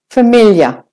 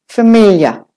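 Both takes have the same delivery.

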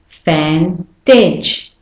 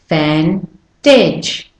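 The two takes are said the same way.

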